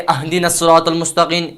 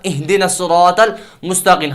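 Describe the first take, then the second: First: The first word begins with an 'a' vowel. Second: The first word begins with an 'i' vowel. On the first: The speaker calls it wrong. "हरकत में गलती करना" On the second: The speaker calls it right. "असल में है"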